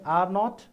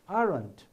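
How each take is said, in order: First: It is said as two full separate words. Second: It is said as one contracted syllable. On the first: The speaker calls it wrong. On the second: The speaker calls it right. "it should be pronounced as aren't"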